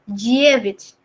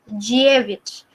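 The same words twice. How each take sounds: No difference in how they are said.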